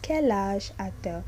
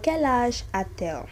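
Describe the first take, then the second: First: A T sound links 'a' to 'elle'. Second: A T sound links 'a' to 'elle'.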